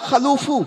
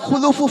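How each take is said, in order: First: The first vowel is an 'a' sound. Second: The first vowel is a 'u' sound. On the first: The speaker calls it wrong. "খালুফ পড়েছেন ফাতাহার সঙ্গে" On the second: The speaker calls it right. "জাম্মার সঙ্গে পড়াটাই সব থেকে বেটার"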